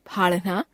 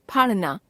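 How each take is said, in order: First: फाड़ना said as फाढ़ना, rising; फाड़ना with aspirated flap, end lifted. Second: फाड़ना with plain flap ड़, falling; फाड़ना as phāṛna, closing fall; unaspirated ड़. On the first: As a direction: add breath to ड़ in फाड़ना. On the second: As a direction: keep breath off ड़ in फाड़ना. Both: Shown as a demonstration. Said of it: "ड़ और ढ़ की अशुद्धियां".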